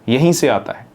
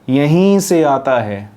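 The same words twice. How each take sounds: First: The word 'yahin' is said short and brisk. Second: The word 'yahin' is stretched out long. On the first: The speaker calls it right. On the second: The speaker calls it wrong.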